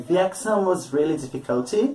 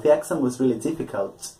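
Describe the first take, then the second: First: An extra vowel sound is added after "difficult". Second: "Difficult" ends cleanly with no added sound. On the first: The speaker calls it wrong. "You don't kind of add a new phoneme, a new sound at the end" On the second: The speaker calls it right.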